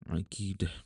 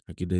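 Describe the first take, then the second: First: It is pronounced with Arabic sounds. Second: It is pronounced with plain Indonesian sounds. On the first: "bahasa Arabnya tuh akidah" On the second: "Akidah itu kan bahasa Indonesia ya"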